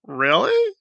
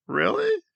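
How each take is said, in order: First: Said in the usual way. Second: Much higher, softer disbelieving squeak; incredulous really. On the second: Real, not acted. Vlogger scoffing at a claim of being buried, high disbelieving squeak. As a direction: let disbelief jump the voice right up.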